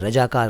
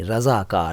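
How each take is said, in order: First: The second consonant is a 'j' sound. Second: The second consonant is a 'z' sound. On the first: The speaker calls it wrong. "रजाकार नहीं" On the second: The speaker calls it right. "रज़ाकार को रजाकार मत कहिएगा"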